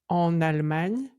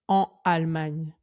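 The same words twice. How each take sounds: First: The n is linked to the next word. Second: The n is not linked to the next word. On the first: The speaker calls it right. "on fait bien la liaison entre une consonne et une voyelle" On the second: The speaker calls it wrong. "on ne dit pas"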